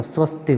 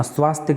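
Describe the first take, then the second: First: स्वस्तिक said with short a, swas-tik; teacher gives the right स्वस्तिक with short first vowel; correct form. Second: स्वास्तिक said with long aa in swaas; teacher reads स्वास्तिक, stretching the first vowel; wrong spelling said. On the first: Teacher corrects the spelling for students, स्वस्तिक. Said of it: "स्वस्तिक होता है". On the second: Teacher shows students the wrong form स्वास्तिक. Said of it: "स्वास्तिक नहीं होता". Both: Shown as a demonstration.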